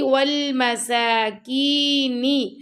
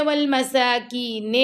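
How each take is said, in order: First: والمساکین ending in a clear نی, not نے; correct kasra. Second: والمساکین as most people wrongly say it; mistaken ending. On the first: Teacher modelling the right ending of والمساکین. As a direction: finish والمساکین on a long نی. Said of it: "اکثر لوگ پڑھتے ہیں". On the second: Teacher imitating how people usually mispronounce it. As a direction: imitate the common slip in والمساکین. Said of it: "تو نے نہیں پڑھتے". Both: Shown as a demonstration.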